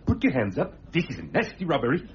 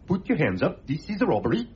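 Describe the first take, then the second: First: It sounds more threatening and menacing. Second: It sounds mild and not threatening.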